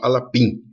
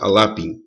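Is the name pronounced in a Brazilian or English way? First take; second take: Brazilian; English. First: The name is pronounced the Brazilian Portuguese way. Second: The name is pronounced the English way. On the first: "o pessoal aqui no Brasil fala Alapin" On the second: "eu prefiro a pronúncia inglesa"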